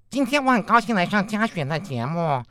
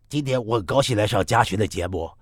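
First: Nasal resonance is added, giving a nasal tone. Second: The nasal voice is pitched lower and deeper. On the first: "那如果我们再加一点鼻腔共鸣呢？" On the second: "那同样鼻腔共鸣声音再低一点呢？"

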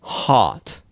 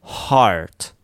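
First: It is said with British vowel, no r. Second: It is said with American r-coloring.

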